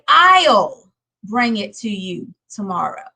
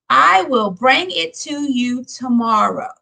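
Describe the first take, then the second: First: The two words are joined into one syllable. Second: The two words are said separately in full. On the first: The speaker calls it right. "we'll say I'll" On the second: The speaker calls it wrong. "rather than saying I will"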